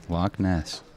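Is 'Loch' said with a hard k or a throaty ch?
hard k. Loch ends in a plain hard k sound.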